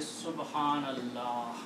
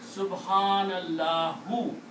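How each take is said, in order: First: The final short vowel is dropped. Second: The final short vowel u is pronounced. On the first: "You stop. You say Subhanallah. You do not pronounce the last letters harkat" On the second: "But if this word is the last word, then you have to stop"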